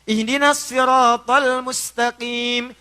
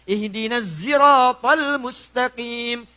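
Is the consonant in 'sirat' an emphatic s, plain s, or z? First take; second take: emphatic s; z. First: Sirat begins with an emphatic, heavy s sound. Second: Sirat begins with a voiced z sound.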